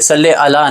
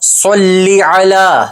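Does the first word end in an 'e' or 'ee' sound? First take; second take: e; ee. First: The first word ends in a short e sound. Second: The first word ends in an ee sound. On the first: The speaker calls it wrong. "सल्ले अला नहीं" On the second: The speaker calls it right. "लाम के नीचे ज़ेर आएगी"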